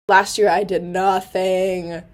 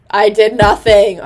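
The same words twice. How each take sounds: First: Said in the usual way. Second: "I did nothing" said louder, leaning on "nothing"; emphatic repeat. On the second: Real, not acted. Confessing to viewers she did no clubs last year, emphatic repeat. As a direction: hit "nothing" hard the second time.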